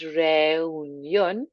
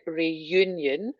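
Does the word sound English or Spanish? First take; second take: Spanish; English. First: It is said with Spanish vowels and sounds. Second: It is said like the English word reunion. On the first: The speaker calls it right. "So a nice reunión" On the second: The speaker calls it wrong. "not to make it sound like reunion"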